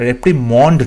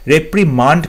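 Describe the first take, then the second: First: "রেপ্রিমন্ড" ending in a rounded "mond"; "রেপ্রিমন্ড" with "o" in the last syllable; wrong pronunciation shown. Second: "রেপ্রিমান্ড" ending in an open "maand"; "রেপ্রিমান্ড" with "a" in the last syllable; correct pronunciation shown. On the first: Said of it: "নয়". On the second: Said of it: "রেপ্রিমন্ড নয়". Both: Shown as a demonstration.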